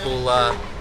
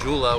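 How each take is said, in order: First: It begins with an H sound. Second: It begins with a J sound and an OO vowel. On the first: "it's not Hula" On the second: "it's definitely not Jula, which is what is most common"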